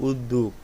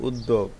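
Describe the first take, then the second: Both takes have the same delivery.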